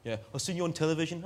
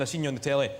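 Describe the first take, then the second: First: Mock Leamington Spa English accent, higher pitched and quick. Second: Said in the usual way. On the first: Scottish comic mimics a Leamington Spa viewer, English accent. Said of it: "a very convincing Leamington Spa accent". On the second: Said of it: "somebody in Scotland saying".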